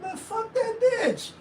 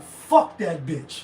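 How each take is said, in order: First: High, light, breezy brush-off; a careless toss-away line; offhand dismissal. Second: Lower, slow, spiteful; mock venomous grudge; hateful venom. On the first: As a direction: shrug it off lightly, no venom. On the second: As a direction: say it like you truly mean harm. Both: Shown as a demonstration. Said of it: "You don't mean, like".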